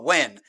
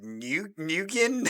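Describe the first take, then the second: First: The name sounds like one syllable, 'when'. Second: The name is spelled out in several syllables. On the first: The way the name is actually said. The speaker calls it right. "that's how you pronounce it" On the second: A guess from reading the spelling. The speaker calls it wrong. "Is it New Nukin? I don't know what the hell I'm looking at"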